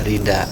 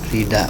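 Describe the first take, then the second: The two takes are said the same way.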